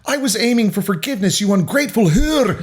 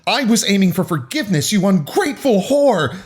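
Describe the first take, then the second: First: High shouted line turning Scottish at the end; quick, hammed-up Scottish outburst; Scottish accent. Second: High-pitched angry shout; acted high, indignant yell. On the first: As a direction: slide into an exaggerated Scottish accent on the insult. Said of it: "insultingly Scottish at the end of it". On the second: A narrator's reading. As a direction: shout the insult in outrage. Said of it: "Haley shouted".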